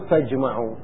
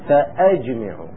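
First: There is no glottal stop after the initial fa. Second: A glottal stop is heard after the initial fa. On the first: The speaker calls it wrong. "مو فاجمعوا، فاجمعوا همزة وصل" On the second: The speaker calls it right. "لا بالهمزة المقطوعة"

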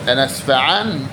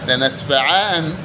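Both takes have the same delivery.

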